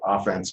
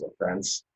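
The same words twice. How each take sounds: First: OFF-ense, first syllable stressed. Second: Of-FENSE, second syllable stressed. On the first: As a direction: offense with the weight on OFF. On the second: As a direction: offense with the weight on FENSE. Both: Shown as a demonstration. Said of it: "stress pattern is built into the word".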